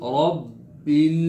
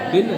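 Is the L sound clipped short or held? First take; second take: held; clipped. First: The final L sound is held briefly. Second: The final L sound is clipped short. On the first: The speaker calls it right. "आवाज़ को ठहराएं, होल्ड करें आवाज़ को" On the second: The speaker calls it wrong. "रब्बिल नहीं"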